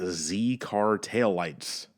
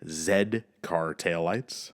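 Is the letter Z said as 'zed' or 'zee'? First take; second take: zee; zed. First: The letter Z is said the American way, 'zee'. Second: The letter Z is said the English way, 'zed'.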